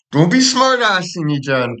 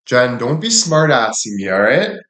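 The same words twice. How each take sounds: First: Much higher, squeaky mock scold, stretched out; put-on scolding voice. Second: Said in the usual way. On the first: Shown as a demonstration. Streamer scolding a chatter in a put-on squeaky voice. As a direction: play a shrill little nag telling her off. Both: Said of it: "when I talk with this".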